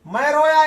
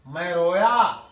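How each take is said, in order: First: "मैं रोया" cried out higher and louder; emphatic recitation. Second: "मैं रोया" dropped lower, held steady; a lower, sombre "मैं रोया"; low recitation. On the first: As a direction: punch "रोया" with a lifted, louder voice. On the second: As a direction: let "मैं रोया" sink low and grave. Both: Shown as a demonstration. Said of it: "तो वही बच्चन जी बता रहे हैं".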